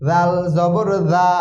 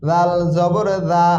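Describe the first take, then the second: No difference in how they are said.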